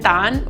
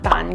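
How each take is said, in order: First: The syllable is said with a rising tone. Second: The syllable is said with a low flat tone. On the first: "with a rising tone" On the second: "with a low flat tone"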